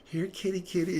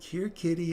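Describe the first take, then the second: First: High, sweet here-kitty call; sing-song kitty kitty coax. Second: High, sweet call to a cat; sing-song here-kitty coax. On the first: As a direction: lure the cat in, pitched up. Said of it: "You're like". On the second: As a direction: coax the cat closer, pitched up. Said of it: "So you're like". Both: Retold or imitated.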